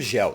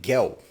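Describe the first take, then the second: First: It begins with a soft J sound. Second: It begins with a hard G sound. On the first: The speaker calls it wrong. "não gel" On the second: The speaker calls it right. "É gel. Em grego não tem a, a pronúncia do J"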